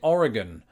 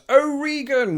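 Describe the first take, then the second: First: The word is said at a normal, calm volume. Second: The word is yelled very loudly. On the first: "I always pronounce it Oregon" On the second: "simply yelling from the top of their lungs"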